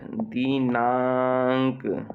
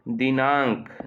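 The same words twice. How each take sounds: First: दिनांक stretched out very slowly; slow dictation. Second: Said in the usual way. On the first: Shown as a demonstration. Teacher dictating to pupils, slowly spelling out the word. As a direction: draw out दिनांक for the class to write. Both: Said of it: "तो अम की मात्रा न में आ जाएगी".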